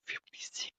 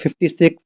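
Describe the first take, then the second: First: It is whispered with only breath, no voice. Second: It is spoken in a normal, full voice. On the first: "voice नहीं निकलती, बस हवा के माध्यम से तुम्हें सुनाई पड़ता है" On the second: "वो ऐसे नहीं बोलता"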